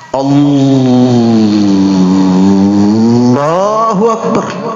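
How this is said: It is revved like a racing engine.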